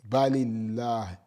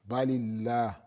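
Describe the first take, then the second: Both takes have the same delivery.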